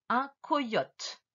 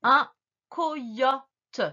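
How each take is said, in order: First: Said in the usual way. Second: COYOTE split co - yo - te; syllable breakdown. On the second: Shown as a demonstration. Teacher corrects the dictation, COYOTE in separate syllables. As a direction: give each syllable of COYOTE its own beat. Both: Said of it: "Et ensuite".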